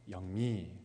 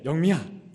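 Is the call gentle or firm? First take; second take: gentle; firm. First: The name is called gently and kindly. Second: The name is called firmly and decisively.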